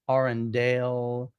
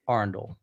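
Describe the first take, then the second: First: The name is said in separate distinct parts. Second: The name is run together like one word. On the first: The speaker calls it wrong. "originally I used to say" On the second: The speaker calls it right. "It's kind of like one word"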